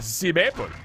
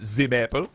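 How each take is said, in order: First: It is said in a put-on German accent. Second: It is said in a plain, ordinary accent.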